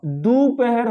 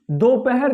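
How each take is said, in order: First: दोपहर with "u" in the first syllable; दोपहर opening on "du", not "do"; correct pronunciation. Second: दोपहर with a long "o": "do-pahar"; दोपहर opening on a stretched "do"; mistaken pronunciation. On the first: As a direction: say दोपहर slowly as "doo-pa-har". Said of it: "दोपहर होता है". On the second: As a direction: say दोपहर slowly as "doh-pa-har". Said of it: "दोपहर नहीं होता". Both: Shown as a demonstration.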